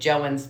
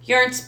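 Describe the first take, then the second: First: The name begins with a J sound. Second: The name begins with a Y sound. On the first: "but I will take Joens" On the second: "J is pronounced as a Y"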